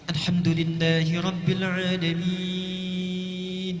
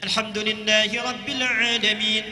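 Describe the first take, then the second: First: It is recited slowly with the longest vowel lengths. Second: It is recited quickly with short vowel lengths. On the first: "tiwal, yang paling panjang" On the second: "qiraah hadar, cepat"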